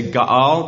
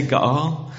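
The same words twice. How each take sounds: First: Ga'al said with a guttural catch in the middle; ga'al, the Hebrew word, voiced carefully. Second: Ga'al drawn out, long open vowels; ga'al, the Hebrew word, for all to repeat; slow ga'al. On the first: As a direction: say ga'al as in Hebrew, two open syllables. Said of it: "you say ga'al". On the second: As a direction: lead them in ga'al slowly. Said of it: "Can we say ga'al". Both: Shown as a demonstration.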